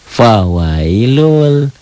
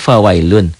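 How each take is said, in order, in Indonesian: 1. Kata ini berakhir dengan bunyi l. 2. Kata ini berakhir dengan bunyi n. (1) "Fawailun jadi lul" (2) "Kan ini fawailun"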